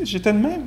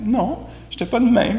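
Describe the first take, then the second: First: A light, high-pitched voice, agreeing with a rising tune; mock high self-quote. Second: Higher-pitched denial with a hint of protest on "de"; mock high self-correction. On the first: Retelling his own words in a mock higher voice. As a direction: sing it up, a playful imitation of yourself. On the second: Teacher mocking his own denial in a high voice. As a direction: play your own protest, half laughing. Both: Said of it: "C'est ça que j'ai dit".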